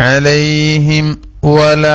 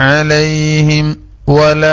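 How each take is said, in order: The two takes are said the same way.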